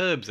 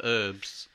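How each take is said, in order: First: "herbs" with the H sounded; British pronunciation. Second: "herbs" with a silent H; American pronunciation. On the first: Asking co-host which pronunciation, "herbs" with a sounded H. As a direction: say "herbs" starting with a breathed H. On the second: Asking co-host which pronunciation, "herbs" without the H. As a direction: drop the H from "herbs", like "erbs". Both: Shown as a demonstration. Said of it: "Is it an American voiceover".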